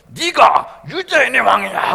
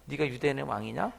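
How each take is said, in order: First: Much louder, slow, weighty "네가 유대인의 왕이냐?"; booming slow demand. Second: Soft, taunting mock question; quiet sneer. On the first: Retold or imitated. Soldier beating Jesus, booming slow interrogation. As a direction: thunder the question as a blunt beating. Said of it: "차라리 빠따를 치면서". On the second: Roman soldier quietly mocking Jesus, sneering. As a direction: needle him quietly with "네가 유대인의 왕이냐?". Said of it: "톡톡 치면서".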